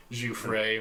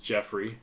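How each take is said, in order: First: Jouffre as zhoo-FRAY; French-sounding Jouffre, ending on a long ay; mispronounced Jeffrey. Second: Said in the usual way. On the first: Shown as a demonstration. Player revealing a character name's trick, said zhoo-FRAY. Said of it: "normal names mispronounced". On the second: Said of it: "was just Jeffrey".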